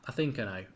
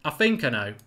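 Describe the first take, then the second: First: Quietly repeated under his breath; softer, half to himself; musing quietly while checking the answer; muttered to himself. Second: Said in the usual way. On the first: Real, not acted.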